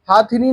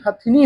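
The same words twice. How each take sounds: First: हाथिनी with a long aa in the first syllable; wrong pronunciation. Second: हथिनी with a short a in the first syllable; correct pronunciation. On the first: Teacher shows students the faulty word, हाथिनी with long haa. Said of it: "नहीं". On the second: Teacher corrects the word for students, हथिनी with short ha. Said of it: "होता है". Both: Shown as a demonstration.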